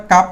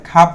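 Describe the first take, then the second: First: কাপ with a plain K, no puff; কাপ starting on unaspirated ক. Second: খাপ with a puff after the K; খাপ starting on aspirated খ. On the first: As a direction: hold back the air on the K of কাপ. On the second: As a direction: release the K of খাপ with air. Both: Shown as a demonstration. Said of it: "কাপ না বলে খাপ বলবো".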